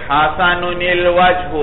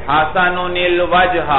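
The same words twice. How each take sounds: Both takes have the same delivery.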